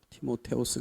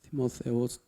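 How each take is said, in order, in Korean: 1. 가운데 자음은 강한 t 소리예요. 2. 가운데 자음은 부드러운 th 소리예요. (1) "히라보식으로 그냥 계속하면 티모테오스" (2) "영어로는 이렇게 되지만"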